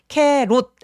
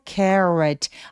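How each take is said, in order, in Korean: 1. 한국식 소리로 발음됩니다. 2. 미국식 r 소리로 발음됩니다. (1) "캐롯 아니고" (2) "R 소리는 입술을 쭉 내밀어서"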